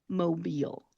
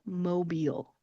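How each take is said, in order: First: The word ends with an 'eel' sound. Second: The same.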